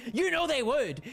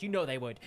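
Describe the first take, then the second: First: "You know they would" pitched high and punched; insistent repeat. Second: Said in the usual way. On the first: Real, not acted. Streamer arguing with chat about British accents, high insistent "You know they would". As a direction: drive home "You know they would", higher and emphatic.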